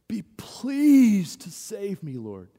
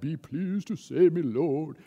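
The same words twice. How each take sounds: First: It is said as a desperate, anguished cry. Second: It is said as a calm, polite, formal request. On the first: The person is desperate and crying out for help. The speaker calls it right. "this is anguish" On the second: It is a courteous, proper request. The speaker calls it wrong. "it sounds in English like it's a proper request"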